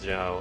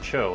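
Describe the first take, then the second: First: The name is said as Zhao. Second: The name is said as Cho. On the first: The speaker calls it wrong. "everybody calls Zhao" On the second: The speaker calls it right. "his name is Cho, actually"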